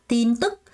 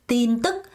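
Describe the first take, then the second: No difference in how they are said.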